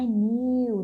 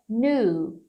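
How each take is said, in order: First: "new" as a stretched "niu"; wrong pronunciation. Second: "new" as a long "noo", no y glide; correct "noo" pronunciation. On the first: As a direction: put a long ee glide into "new". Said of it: "Não é new". ("new" errado, como "niu") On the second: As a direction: go straight from n to oo in "new". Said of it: "É new". ("new" certo, como "nu") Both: Shown as a demonstration.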